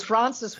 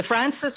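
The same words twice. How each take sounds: First: "Francis" said as Frahn-sis; ah-vowel Francis. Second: "Francis" said as Fran-sis; older Francis pronunciation. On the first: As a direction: broaden the a in "Francis". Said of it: "the R sound was complained". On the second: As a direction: keep a short a in "Francis". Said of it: "pronunciation is older". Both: Shown as a demonstration.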